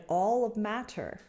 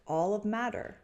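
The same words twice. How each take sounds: The two takes are said the same way.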